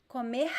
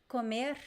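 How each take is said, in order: Both takes have the same delivery.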